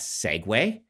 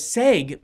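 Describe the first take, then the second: First: The word is said as two syllables. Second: The word is said as one syllable. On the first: The speaker calls it right. "that's Segway" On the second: The speaker calls it wrong. "I thought the word segue was pronounced seg"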